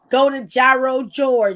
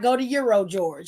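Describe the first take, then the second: First: Gyro is said the Cleveland local way. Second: Gyro is said a different, non-local way. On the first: This is how the local commercial says it. The speaker calls it right. "When you hear the commercial here, it's go to Gyro George" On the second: This is not how the local commercial says it. The speaker calls it wrong. "It's not go to Euro George"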